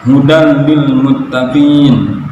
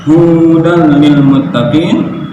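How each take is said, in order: First: Slow hudal lil muttaqin, u short; correct recitation. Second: Slow hudal lil muttaqin with long u; lengthened mistake. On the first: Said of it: "Misalnya dalam kalimat". (hudal lil muttaqin dibaca benar) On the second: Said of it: "Sedangkan huda". (hudal lil muttaqin dengan u panjang yang salah) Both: Shown as a demonstration.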